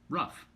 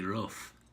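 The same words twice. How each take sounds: First: It is said in an American accent. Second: It is said in a dwarf character's accent.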